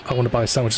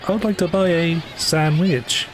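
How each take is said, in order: First: Said in the usual way. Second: Higher, stiff, over-formal game line; stilted voice-line delivery. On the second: Shown as a demonstration. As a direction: say it like a spliced voice clip. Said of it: "That's what it kinda sounds like".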